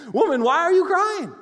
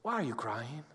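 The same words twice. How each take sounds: First: Much higher and louder, bright mock-astonished question; exclaiming angel. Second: Softer and lower, tenderly asked; gentle, sincere question. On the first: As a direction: call it out like an amazed angel. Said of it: "they asked her". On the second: Real, not acted. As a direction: ask it quietly to each listener. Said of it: "can I ask you the same question the angels asked her".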